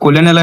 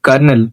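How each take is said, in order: First: It is said with three syllables, co-lo-nel. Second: It is said with two syllables, like kernel. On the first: The speaker calls it wrong. "మీరు చిన్నప్పటి నుండి కొలెనెల్ అని చదువుతూ ఉంటారు" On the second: The speaker calls it right. "Actually correct pronunciation ఏంటంటే కర్నెల్"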